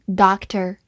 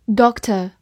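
First: "doctor" the American way, with a final r; American-style "doctor", r-coloured ending; American pronunciation. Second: "doctor" the British way, no final r; British pronunciation. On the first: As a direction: say "doctor" in American English, open ah vowel. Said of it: "美式发音". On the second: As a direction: say "doctor" in British English, short rounded o. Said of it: "或者美式发音". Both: Shown as a demonstration.

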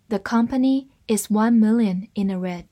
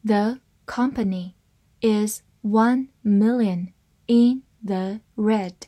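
First: Said in the usual way. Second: Slow, separated words; slow reading. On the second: Shown as a demonstration. English teacher models the company sentence, reading slowly. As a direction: read it slowly, word by word. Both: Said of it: "慢慢来读".

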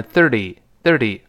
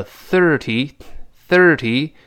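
First: "thirty" as thir-dee, t softened to d; quick voiced thirty. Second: Slow "thirty" with tongue-tip th and clear t; careful tongue-out thirty. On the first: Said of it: "读快门，thirty，thirty会浊化". (“thirty”读快，t浊化成d) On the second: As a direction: stretch "thirty", tongue out for th, crisp t. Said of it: "要吐舌头". (吐舌头慢读“thirty”，t读清楚) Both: Shown as a demonstration.

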